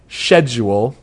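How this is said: It is said with a British pronunciation. This is how the British game says it. "but they totally say schedule"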